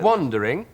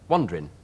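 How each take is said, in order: First: The word is said with three full syllables. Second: The word is said with only two syllables.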